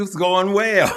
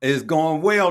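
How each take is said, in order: First: It's going well said through a real laugh, louder. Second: Said in the usual way. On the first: Real, not acted. Host greeting his guest Tyler, laughing.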